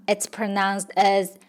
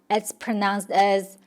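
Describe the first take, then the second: The two takes are said the same way.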